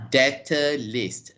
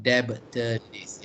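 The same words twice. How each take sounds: First: DEBTOR LIST said slowly, "DET-uh list"; correct pronunciation. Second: DEBTOR LIST said slowly, "DEB-tuh list"; wrong pronunciation. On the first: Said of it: "so you say". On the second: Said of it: "not debtor list". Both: Shown as a demonstration.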